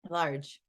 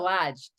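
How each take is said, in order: First: The r is pronounced, with no Boston accent. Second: The r is dropped, in a Boston accent. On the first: "what happened to your Boston accent?" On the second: "Lodge is everything"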